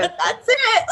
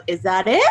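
First: Very high mock confirmation; forced nurse cheer. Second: Imitated question, lifting at the end; mock patient question. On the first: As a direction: chirp the obligatory answer high. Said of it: "I'm gonna have to go". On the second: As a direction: ask it as the underwhelmed patient. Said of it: "He's gonna go".

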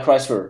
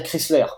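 First: Chrysler said the English way; English pronunciation. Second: Chrysler said the French way; French pronunciation. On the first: Car expert showing the Quebec usage, English pronunciation. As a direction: say Chrysler as English "Cry-sler". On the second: Car expert showing the unused French form, French pronunciation. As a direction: say Chrysler with French vowels, like "kris-lair". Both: Shown as a demonstration. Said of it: "l'accent anglais ou français".

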